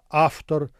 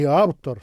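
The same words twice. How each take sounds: First: The consonant before t is voiceless, like f. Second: The consonant before t is voiced, like v. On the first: The speaker calls it right. "а автор" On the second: The speaker calls it wrong. "произносится не автор"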